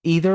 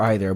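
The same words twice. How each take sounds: First: "Either" said EE-ther; long-E pronunciation. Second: "either" said EYE-ther; long-I pronunciation. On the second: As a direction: start "either" like the word eye. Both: Shown as a demonstration. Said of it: "say either or either differently".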